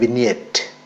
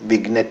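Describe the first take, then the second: First: No hard g sound is heard. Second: A hard g sound is pronounced. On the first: The speaker calls it right. "ജി silent ആണ്" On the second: The speaker calls it wrong. "തെറ്റാണ്"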